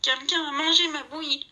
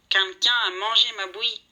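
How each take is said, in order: First: Higher whiny little bear voice; Baby Bear's little voice. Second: Lightly voiced gruff papa bear, louder; a hint of a big bear grumbling. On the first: Baby Bear finds his porridge gone, whiny high voice. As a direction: whimper it like a small cub. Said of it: "gémit Bébé d'une petite voix". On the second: Papa Bear finds his porridge eaten, lightly gruff. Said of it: "dit-il d'une grosse voix". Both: A narrator's reading.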